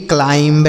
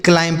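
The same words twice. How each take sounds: First: "क्लाइंब" with a b voiced after the m; B wrongly sounded. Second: "क्लाइम" ending on m, no b; silent B. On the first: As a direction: demonstrate the mistake "क्लाइंब", final b audible. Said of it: "क्लाइंब नहीं पढ़ेंगे". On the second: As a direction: close "क्लाइम" on the m. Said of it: "यम के साथ बी रहता". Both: Shown as a demonstration.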